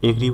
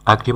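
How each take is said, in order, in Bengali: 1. প্রথম স্বরধ্বনিটি একটি 'eh' ধ্বনি। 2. প্রথম স্বরধ্বনিটি একটি খোলা 'ah' ধ্বনি। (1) "অনেকেই এগ্রি বলে উচ্চারণ করে" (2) "সঠিক উচ্চারণ হবে আগ্রি"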